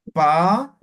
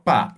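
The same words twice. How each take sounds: First: Pa popped out hard and louder; explosive pa. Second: Plain Spanish-style pa; simple pa. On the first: Teacher demonstrating the explosive Aymara pa. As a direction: burst the pa like something popping. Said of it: "Y esto es explosiva". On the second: Teacher demonstrating a simple pa, like Spanish. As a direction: say pa just like in Spanish. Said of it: "Esto es simple". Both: Shown as a demonstration.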